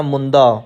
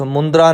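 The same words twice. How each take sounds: First: ਮੁੰਦਾ ending in a clean -da; no R sound. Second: ਮੁੰਦਰਾ with an r after the d; added R sound. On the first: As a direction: say ਮੁੰਦਾ without any r. (ਮੁੰਦਾ ਬਿਨਾਂ ਰਾਰੇ ਤੋਂ) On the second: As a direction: say ਮੁੰਦਰਾ, ending in -dra. (ਮੁੰਦਰਾ ਵਿੱਚ ਰਾਰਾ ਜੋੜ ਕੇ) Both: Shown as a demonstration. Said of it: "ਮੁੰਦਰਾ ਨਹੀਂ ਕਹਿਣਾ".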